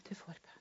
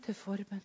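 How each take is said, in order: First: "til forbønn" barely breathed, much softer; "til forbønn" trailing into silence; fading whisper. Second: Breathy whisper of the phrase "til forbønn"; whispered repeat. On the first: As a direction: let "til forbønn" die away. Repeats phrase, fading away. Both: Shown as a demonstration.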